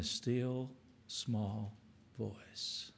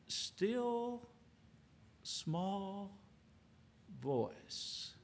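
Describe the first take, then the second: First: Softer, fading still, small voice; a gentle hushed ending. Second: Hushed, reverent near-whisper; soft and hushed. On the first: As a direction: let the phrase fall away gently. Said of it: "speaking to me all along in a still small voice". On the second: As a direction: drop almost to a hush on still, small voice. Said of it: "the Lord was in a still, small voice". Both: Shown as a demonstration.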